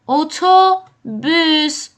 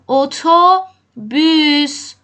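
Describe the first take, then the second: The two takes are said the same way.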